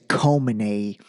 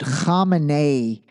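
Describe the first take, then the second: First: It begins with a plain, soft k sound. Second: It begins with a harsh, throaty kh sound. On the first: "most people would just say" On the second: "we have the ability to pronounce, it's like a K H"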